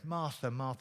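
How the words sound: It is said warmly and tenderly. The speaker feels deep fondness for her. The speaker calls it right. "Martha, my dear friend"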